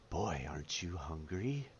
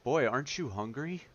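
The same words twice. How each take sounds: First: It is said in a put-on character voice. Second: It is said in his normal voice.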